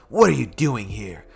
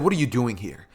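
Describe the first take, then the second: First: It is said in a Vegeta impression. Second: It is said in a Deku impression.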